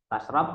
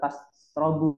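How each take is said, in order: First: The word ends on a consonant, no final vowel. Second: The word ends with a short u vowel. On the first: Do not eat the fish and do not drink milk. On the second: The drinking starts a new, separate statement.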